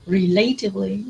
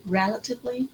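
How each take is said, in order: First: Relatively as "ree-LAY-tiv-ly"; wrong second-syllable stress. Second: Relatively as REL-uh-tiv-ly; correct first-syllable stress. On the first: Teacher showing a student's mistake, relatively with stressed LAY. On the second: Teacher repeating the correction, relatively stressed on REL. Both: Shown as a demonstration. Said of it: "don't say relatively".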